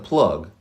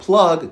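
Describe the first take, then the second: First: The vowel in plug is raised higher. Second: The vowel in plug sounds standard, not raised. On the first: "He raises that vowel sound" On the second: "bringing it from plug"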